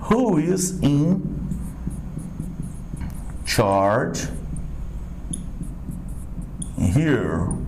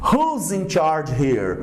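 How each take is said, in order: First: Who and is are said as two full words. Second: Who and is are joined into one contracted word. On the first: "Não era who e o is?" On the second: "vou abreviar ele aqui"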